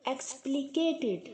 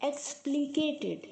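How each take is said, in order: The two takes are said the same way.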